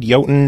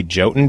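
First: Jotun said with a Y; YOH-tun for Jotun; proper pronunciation. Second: Jotun said with a J; JOH-tun for Jotun; J pronunciation. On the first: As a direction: start Jotun on a Y, not a J. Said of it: "no one would know what to look up". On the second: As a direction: start Jotun on an English J. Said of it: "they prefer to say Jotun". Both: Shown as a demonstration.

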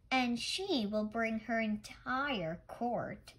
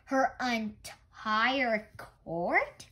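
First: Said in the usual way. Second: Slow, louder disbelieving echo; surprised question. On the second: Acted. Grandfather echoes the child's claim, slow and surprised. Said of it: "Grandfather asked".

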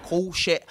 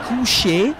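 First: "coucher" echoed as a clumsy koh-shay; botched French repeat. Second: "coucher" modelled high and loud, koo-SHAY; correct French pronunciation. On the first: Retold or imitated. Student echoing the teacher, clumsy "coucher". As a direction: imitate a learner's unsure "coucher", vowel off. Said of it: "and then she goes". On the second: Shown as a demonstration. Full teacher prompting a student, clear "coucher". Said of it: "the correct pronunciation is".

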